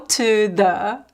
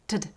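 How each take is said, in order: First: The words are said slowly with full vowels. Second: The words are quick with reduced vowels. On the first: The speaker calls it wrong. "There is no to the" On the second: The speaker calls it right. "It's really quick"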